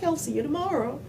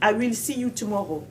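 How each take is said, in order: First: I and will are joined into one syllable. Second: I and will are said fully and separately. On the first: The speaker calls it right. "quand eux ils le disaient" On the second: The speaker calls it wrong. "Non, mais c'était pas"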